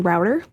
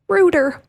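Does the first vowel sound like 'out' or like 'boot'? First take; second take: out; boot. First: The first vowel sounds like the vowel in 'out'. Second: The first vowel sounds like the vowel in 'boot'.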